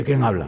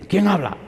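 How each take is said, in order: First: Said in the usual way. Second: High, challenging phone answer; defiant. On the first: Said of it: "no me está preguntando". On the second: Retold or imitated. Woman answering the pastor's call, defiant. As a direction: demand it like a challenge. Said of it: "una forma de hablar muy, muy, muy desafiante".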